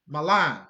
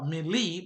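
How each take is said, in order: First: The word is said differently from its spelling. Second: The word is said as it is spelled. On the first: The speaker calls it right. "but it's pronounced Malan" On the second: The speaker calls it wrong. "you might pronounce it uh"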